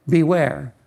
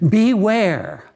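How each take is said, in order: First: Said in the usual way. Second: Beware, raised and hit hard, falling; emphatic warning. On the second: Acted. Preacher warns the church about showy ministry, emphatic beware. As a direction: land beware like a sharp warning.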